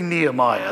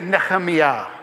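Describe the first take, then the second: First: The name is said in the familiar English form. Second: The name is said in a Hebrew-style form. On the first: Listeners recognize the name. The speaker calls it right. "That's what everyone knows" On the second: Listeners may not recognize the name. The speaker calls it wrong. "Don't say Nehemiah"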